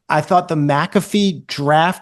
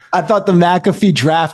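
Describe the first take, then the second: First: It is said in a casual, hesitant way. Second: It is said in a confident, authoritative way.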